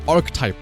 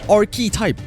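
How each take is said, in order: First: It is said as two syllables, arc-type. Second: It is said with an extra vowel before type. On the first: "they all pronounce it archetype" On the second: "it's A R C H E, so it's archetype"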